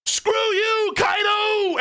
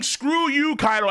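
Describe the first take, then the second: First: Retold yell. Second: Slightly raised mock yell; retold yell, lighter. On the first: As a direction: yell it at the enemy like an anime villain. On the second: Streamer quoting Big Mom again, a half-hearted mock yell. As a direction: toss the battle cry off half-heartedly. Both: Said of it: "She's yelling".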